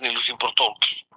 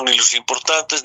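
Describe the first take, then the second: First: "importantes" twisted into "importontes", stretched out slowly; playful mispronunciation. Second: Said in the usual way. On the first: Real, not acted. Wordplay, twisted repeat of importantes.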